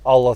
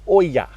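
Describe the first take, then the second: First: The middle consonant is an L sound. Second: The middle consonant is a Y sound. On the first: The speaker calls it wrong. "I pronounce just about everything wrong" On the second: The speaker calls it right. "It's actually pronounced, I believe, Oya"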